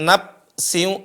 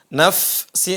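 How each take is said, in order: First: The consonant before s is a stopped p. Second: The consonant before s is a hissing f. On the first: The speaker calls it wrong. "bukan nap si" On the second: The speaker calls it right. "fa-nya ada desis"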